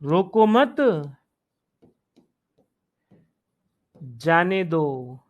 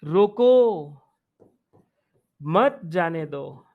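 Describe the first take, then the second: First: रोको मत together, rising on मत, long pause, slow low जाने दो; pause after मत. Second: रोको drawn out alone, long pause, then मत जाने दो lower; pause after रोको. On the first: Teacher giving the opposite meaning by intonation, pause after मत. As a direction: join मत to रोको, then break before जाने दो. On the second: Teacher showing students how intonation changes meaning, pause after रोको. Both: Shown as a demonstration. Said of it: "देखो स्वर का कितना अंतर हो गया है".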